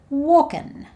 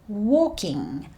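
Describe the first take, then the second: First: The ending is a shortened 'in' sound. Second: The ending is a full 'ing' sound.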